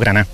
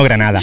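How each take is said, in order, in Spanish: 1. La palabra se corta y pierde los sonidos de la última sílaba. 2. La palabra se dice completa, con todas las sílabas. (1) "has dicho Granada" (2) "y no Granada"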